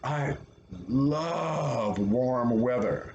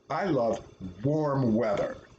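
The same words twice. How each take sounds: First: The stress is on "love". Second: The stress is on "warm".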